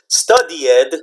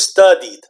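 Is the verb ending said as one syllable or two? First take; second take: two syllables; one syllable. First: The ending is split into two separate syllables. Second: The ending is said as a single syllable. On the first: The speaker calls it wrong. "You don't say studied" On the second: The speaker calls it right. "But only one syllable"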